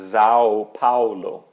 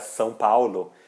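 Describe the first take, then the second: First: São begins with a buzzing Z sound. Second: São begins with a hissing S sound. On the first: This is how German speakers say it. "Eles vão dizer São Paulo, São, porque o S tem som de Z para eles" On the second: This is the Portuguese way of saying it. "não conseguem pronunciar São Paulo"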